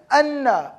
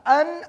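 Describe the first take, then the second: First: "anna" drawn out on the n, falling; emphatic connector. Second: Said in the usual way. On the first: Shown as a demonstration. Teacher setting "anna" against plain "an", emphatic. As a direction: stretch and lean on "anna". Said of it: "Anna is an emphasized sentence connector". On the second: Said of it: "An is a normal sentence connector".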